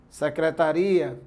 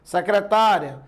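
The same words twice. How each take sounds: First: Secretaria, slow, stressed on RI. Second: Secretária, stressed on TÁ. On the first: Teacher showing shifted stress changes meaning, stress on RI. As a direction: draw out secreta-RI-a on the i. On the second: Teacher showing shifted stress changes meaning, stress on TÁ. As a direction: hit secre-TÁ-ria, ending unstressed. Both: Shown as a demonstration. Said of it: "Se eu deslocar a sílaba tônica".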